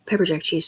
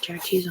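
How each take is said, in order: First: "Pepper" said first and clearly stressed as the correction. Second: Said in the usual way. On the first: Shown as a demonstration. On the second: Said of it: "Pepper jack cheese, sorry".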